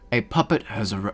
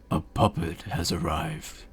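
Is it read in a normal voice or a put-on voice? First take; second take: normal; put-on. First: It is read in a normal voice. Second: It is read in a put-on character voice.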